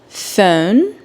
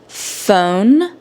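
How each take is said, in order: Both takes have the same delivery.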